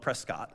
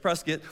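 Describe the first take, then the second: First: The name is said the way outsiders say it. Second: The name is said the way locals say it. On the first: This is how people outside the state say it. The speaker calls it wrong. "Anywhere else in the country, they call it Prescott" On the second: This is how people in the state say it. The speaker calls it right. "but it's Prescott"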